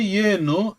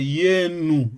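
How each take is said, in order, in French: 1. Le mot finit par une voyelle o. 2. Le mot finit par une voyelle u. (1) "on a O à la fin" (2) "à Kwilu, on prononce euh, Yenu"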